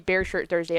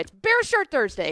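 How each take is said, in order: First: It is said in a calm, plain way. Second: It is said loudly and aggressively.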